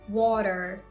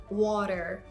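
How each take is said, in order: The two takes are said the same way.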